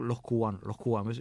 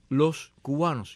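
First: The s in 'los' sounds like a breathy h. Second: The s in 'los' is a clear hissing s. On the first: "vamos a decir los cubanos" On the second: "habría de ser dicho los cubanos"

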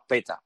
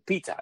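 First: The first vowel sounds like 'eh'. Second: The first vowel sounds like 'ee'. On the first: The speaker calls it right. "pero es PETA" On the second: The speaker calls it wrong. "hay quien pronuncia PITA, no es PITA"

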